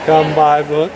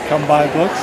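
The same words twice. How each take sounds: First: It is said louder. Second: It is said at a normal, softer volume.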